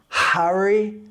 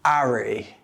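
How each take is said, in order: First: The word starts with a clear H sound. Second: The word starts with no H sound. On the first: "the H is heard loud and clear" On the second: "the H is dropped completely"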